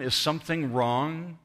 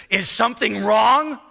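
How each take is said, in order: First: Said in the usual way. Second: Put-on loud, high, indignant Hebrew-accented retort; thick Hebrew accent. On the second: Angry nursing-home resident answers his visitor, thick Hebrew accent. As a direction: throw the question back loudly in a thick Hebrew accent. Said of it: "in a very thick Hebrew accent".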